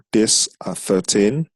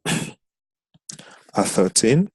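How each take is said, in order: First: Said in the usual way. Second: At thirteen stretched out very slowly; "At thirteen" drawn out word by word; slow, drawn-out repeat. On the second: Shown as a demonstration. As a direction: say "At thirteen" again, dragging each syllable.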